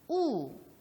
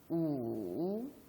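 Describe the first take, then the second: First: The pitch falls sharply from high to low. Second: The pitch dips low, then rises. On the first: "제4성" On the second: "제3"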